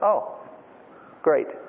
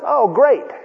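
First: It sounds displeased and unenthusiastic. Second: It sounds pleased and excited.

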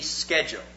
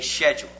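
First: The word begins with a hard 'sk' sound. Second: The word begins with a soft 'sh' sound.

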